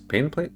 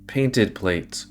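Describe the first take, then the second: First: Painted plate? rising high in confusion; puzzled question. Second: Said in the usual way. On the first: Shown as a demonstration. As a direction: ask Painted plate? as if baffled. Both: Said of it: "What are painted plates?".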